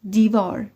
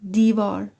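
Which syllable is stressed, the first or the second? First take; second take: first; first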